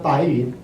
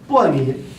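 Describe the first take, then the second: First: The first syllable is said like 'bai'. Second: The first syllable is said like 'bo'. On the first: This is the modern reading of the word. The speaker calls it wrong. "never ever 白云" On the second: This is the ancient reading of the word. The speaker calls it right. "It's pronounced as 薄"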